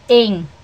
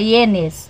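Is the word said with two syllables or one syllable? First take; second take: one syllable; two syllables. First: The word is said as one short nasal syllable. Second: The word is said in two syllables, ending -nes. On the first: The speaker calls it right. "eu aprendi que não é ienes, é em" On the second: The speaker calls it wrong. "A gente fala ienes, mas não é"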